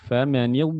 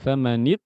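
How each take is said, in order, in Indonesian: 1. Bunyi konsonan itu mengalir terus. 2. Bunyi konsonan itu terputus mendadak. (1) "nah itu famanid" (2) "bukan famanid"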